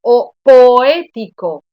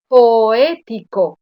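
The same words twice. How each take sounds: First: Poético loud and slow, with the O and the E equally strong and split; poético, fuerte y lento, separando las vocales; loud, slow hiatus demo. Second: Poético again loud and very slow, with the O and the E split; repetición lenta y fuerte de poético; loud, slow repeat. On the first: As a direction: belt out po-É-ti-co, both vowels full. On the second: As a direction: drag out po-é-ti-co. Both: Shown as a demonstration. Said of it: "Es la misma intensidad de las dos vocales".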